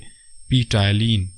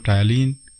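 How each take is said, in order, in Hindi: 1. शब्द की शुरुआत 'p' ध्वनि से होती है। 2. शब्द की शुरुआत सीधे 't' ध्वनि से होती है। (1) "हालांकि इसमें पी साइलेंट है" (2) "टायालीन ही प्रोनाउंस किया था"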